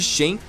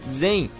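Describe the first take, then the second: First: The name starts with a 'sh' sound. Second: The name starts with a 'z' sound. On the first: The speaker calls it wrong. "por isso eu opto por falar da maneira errada mesmo" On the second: The speaker calls it right. "a pronúncia correta de Shen é na verdade Zen"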